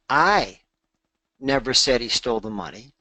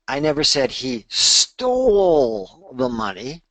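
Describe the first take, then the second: First: The word "I" carries the main stress. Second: The word "stole" carries the main stress. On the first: Someone else said it. "that would imply that I didn't say it. Maybe Marie said it or someone else said it" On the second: He may have borrowed it instead. "maybe he borrowed it"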